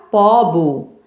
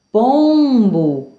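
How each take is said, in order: First: Slow pobo with an oral o; nasal removed. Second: Pombo with a held nasal om; nasal vowel. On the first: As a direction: say pobo, nothing through the nose. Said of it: "Se eu retirar o M de pombo". (pobo sem som nasal) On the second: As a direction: say pombo, first vowel through the nose. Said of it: "Agora com a letra M". (pombo com som nasal) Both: Shown as a demonstration.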